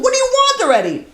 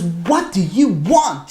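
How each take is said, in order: First: Very high-pitched exasperated squeal; frustrated outburst. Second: Slow, heavily spaced exasperated question; frustrated demand. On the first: Daughter worn down by endless knocking, high frustrated outburst. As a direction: act out being at wits' end, voice shooting up. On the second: Daughter finally opening the door to the knocker, slow frustration. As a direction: act out demanding an answer, dragging each word. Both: Retold or imitated. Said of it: "She's so frustrated".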